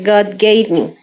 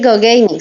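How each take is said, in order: First: The words are pronounced in standard English. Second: The words are pronounced in a mangled, childlike way. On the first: The speaker calls it right. "se dice God gave me" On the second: The speaker calls it wrong. "no se dice God gave me"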